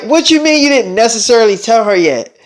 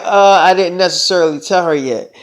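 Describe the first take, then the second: First: Mildly indignant echoed question; a touch of affronted disbelief; indignant challenge. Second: Said in the usual way. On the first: Acted. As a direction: throw the admission back as a challenge. Lover challenges his admission.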